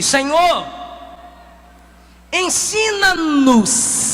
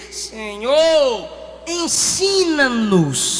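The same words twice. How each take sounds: First: Slow humble plea, stretched out; súplica lenta. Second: Slow, low humble plea; súplica lenta. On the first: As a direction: beg gently and slowly. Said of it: "lhe disse". (súplica humilde e arrastada) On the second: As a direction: ask humbly, drawing it out. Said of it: "foi a ele e disse". (súplica humilde e lenta) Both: Acted.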